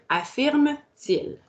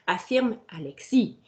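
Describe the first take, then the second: First: «Affirme-t-il» drawn out slowly, each syllable clear; slow demo. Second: Said in the usual way. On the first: Shown as a demonstration. Teacher showing the inverted verb slowly to the class. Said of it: "je vais aller dire". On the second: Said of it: "je peux aller dire".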